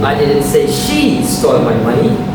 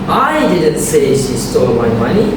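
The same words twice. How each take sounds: First: The stress falls on the word she. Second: The stress falls on the word I. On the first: Someone else took the money. "Someone else did" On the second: Someone else said it. "which means someone else did"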